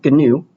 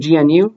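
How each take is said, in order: First: It is pronounced together as one short word. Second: Each letter is named separately, one after another. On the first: "but apparently you pronounce it as" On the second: "If you were reading it for the first time, you'd say"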